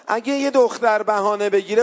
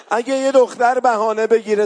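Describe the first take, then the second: First: Said in the usual way. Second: Louder, with دختر hit hard; rising preacher emphasis. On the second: Acted. Preacher repeats to the mourners, stressing دختر louder. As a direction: lean on the word دختر and lift it.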